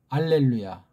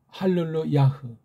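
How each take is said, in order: First: The word begins with a vowel sound. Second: The word begins with an h sound. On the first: "다른 말로 알렐루야" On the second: "발음 한 가지를 보면 할렐루야흐"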